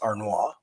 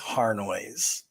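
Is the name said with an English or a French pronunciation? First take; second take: French; English. First: The name is said with a French pronunciation. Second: The name is said with an English pronunciation. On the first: "The the the proper French pronunciation is Arnois" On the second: "the Angloized version is Harnois"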